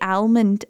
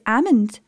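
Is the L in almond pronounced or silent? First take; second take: pronounced; silent. First: The L sound is pronounced in the word. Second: The L sound is left silent in the word. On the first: The speaker calls it wrong. "American accents, they say almond" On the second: The speaker calls it right. "It's a silent L"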